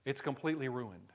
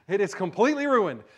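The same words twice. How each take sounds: First: Said in the usual way. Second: "completely" hit higher and louder; emphatic repeat. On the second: Shown as a demonstration. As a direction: punch the word "completely" with rising energy. Repeated louder, higher after laugh.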